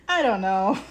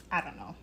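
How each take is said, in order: First: Laughing through the words. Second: Said in the usual way. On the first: Real, not acted. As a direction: let the laugh break in. Repeats it with a laugh.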